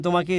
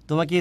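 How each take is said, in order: The two takes are said the same way.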